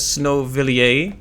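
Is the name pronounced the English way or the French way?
French. The name is pronounced with a French sound. "It looks Friends, French, uh, so my instinct is to pronounce it as"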